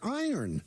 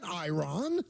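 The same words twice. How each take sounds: First: The word is said the usual way. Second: The word is said in an odd way. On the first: The speaker calls it right. "The word is iron" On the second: The speaker calls it wrong. "It's not iron"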